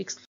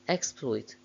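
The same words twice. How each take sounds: First: The stress is on the second syllable. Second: The stress is on the first syllable. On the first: It is used as a verb. "main stress of the verbs is on the second syllable" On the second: It is used as a noun. "main stress of the nouns is on the first syllable"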